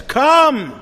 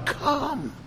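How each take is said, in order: First: "Come" cried out high and loud; loud call. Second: "come" high but softer, drawn in; "come" as a gentle, hushed invitation; soft call. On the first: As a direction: fling "Come" out as a summons. Prophet's call quoted in sermon. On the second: Prophet's call repeated softly. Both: Acted.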